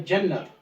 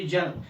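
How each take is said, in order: First: जन्नत with a held double n, jan-nat; correct pronunciation. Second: जन्नत said easily with a single n; wrong pronunciation. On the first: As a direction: lean on the न in जन्नत. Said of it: "इसका सही तलफ़ुज़ जो है". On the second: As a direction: glide over the न in जन्नत. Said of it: "ये सही तलफ़ुज़ नहीं है". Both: Shown as a demonstration.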